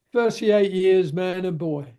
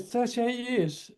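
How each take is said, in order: First: Lightly voiced old hand stating his long service; old workmate's reply. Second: High, hushed, drawn-out disbelief; incredulous echo. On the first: Old welder answering the young man's question, lightly acted slow pride. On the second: Retold or imitated. Young welder repeating the old fellow's answer, acted hushed disbelief. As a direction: echo it slowly as an astonished question.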